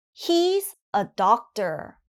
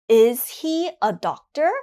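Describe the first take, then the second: First: Slow model statement, "doctor" falling at the end; falling intonation. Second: Firm, loud "Is", then "doctor" rising as a question; rising intonation. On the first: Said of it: "the intonation is going down". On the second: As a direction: send "doctor" upward to ask. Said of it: "again, the intonation goes up". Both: Shown as a demonstration.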